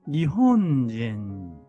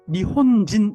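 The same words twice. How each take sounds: First: Each beat gets full length, including the nasal. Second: The beats are rushed with a short final syllable. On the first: The speaker calls it right. "이렇게 끄집어내 줘야 된다" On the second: The speaker calls it wrong. "이러면 안 됩니다"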